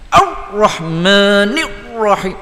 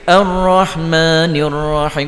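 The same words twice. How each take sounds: First: The doubled r is pressed hard and tense. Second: The doubled r is said lightly and smoothly. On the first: The speaker calls it wrong. "Dia jadi oh setok oh... sebab ra tu nak tekan" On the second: The speaker calls it right. "ringankan sahaja. Nampak beza gitu je. Kan comel tu"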